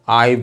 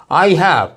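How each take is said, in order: First: "I" said as "I've", one syllable; contracted form. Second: "I have" as two separate words; both words of "I have" sounded fully; two full syllables. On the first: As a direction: close "I" straight onto a v, "I've". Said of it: "I में एक ही syllable है". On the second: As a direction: say "I have" uncontracted. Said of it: "जबकि I have में दो हैं". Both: Shown as a demonstration.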